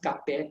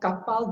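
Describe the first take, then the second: First: The word ends with an open e vowel. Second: The word ends with a clear final l. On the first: This is the community's own dialect pronunciation. "becomes kape to us" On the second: This is the standard Malay pronunciation. "kapal becomes"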